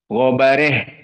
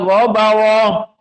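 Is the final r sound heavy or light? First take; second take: light; heavy. First: The r is light, the vowel leaning toward e. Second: The r is heavy, with an open a vowel. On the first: "Dalam keadaan muraqqaqah" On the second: "Tafkhim ra"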